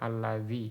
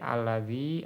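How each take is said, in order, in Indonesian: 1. Kata ini diakhiri dengan vokal i pendek. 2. Kata ini diakhiri dengan vokal i panjang. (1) "atau dihapus" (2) "bisa ditetapkan"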